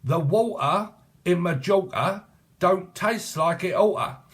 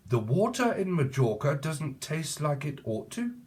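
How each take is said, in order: First: High, slow, put-on proper-speech voice, with "don't" and "oughta" drawn out; mock elocution voice. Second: Said in the usual way. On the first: Shown as a demonstration. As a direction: ham up "don't taste like it oughta" as an elocution lesson.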